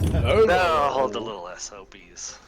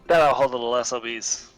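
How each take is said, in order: First: It is said slowly. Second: It is said fast.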